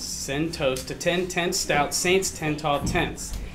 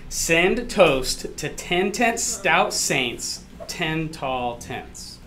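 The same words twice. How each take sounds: First: It is said fast. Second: It is said slowly.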